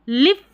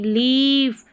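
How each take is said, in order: First: The vowel is short, like in 'lip'. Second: The vowel is a long 'ee' sound. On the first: The speaker calls it wrong. "लिफ नहीं" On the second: The speaker calls it right. "बड़ी ई की जैसे पढ़ रहे हैं"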